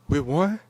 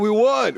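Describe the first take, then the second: First: It sounds surprised and unsure. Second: It sounds proud and triumphant.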